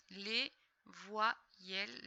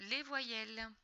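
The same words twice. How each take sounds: First: "Les voyelles" very slow, broken into syllables; syllable-by-syllable reading. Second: Said in the usual way. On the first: Shown as a demonstration. Teacher decoding for a pupil, "Les voyelles" syllable by syllable. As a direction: pause after each syllable of "Les voyelles". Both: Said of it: "on les lit ensemble".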